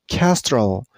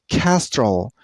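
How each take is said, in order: The two takes are said the same way.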